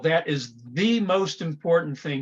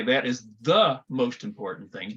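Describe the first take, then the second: First: 'The' is stressed with a full 'thee' sound. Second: 'The' is unstressed with a weak 'thuh' sound. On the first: The speaker calls it right. "I'm emphasizing the word the" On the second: The speaker calls it wrong. "I don't say"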